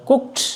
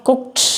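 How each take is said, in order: Both takes have the same delivery.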